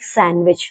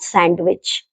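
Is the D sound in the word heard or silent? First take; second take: silent; heard. First: The D sound is silent. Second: The D sound is pronounced. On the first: The speaker calls it right. "some words in which D is silent" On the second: The speaker calls it wrong.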